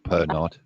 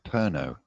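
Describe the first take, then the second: First: The word ends with a sounded final consonant. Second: The word ends on a vowel, final consonant silent. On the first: The speaker calls it wrong. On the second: The speaker calls it right.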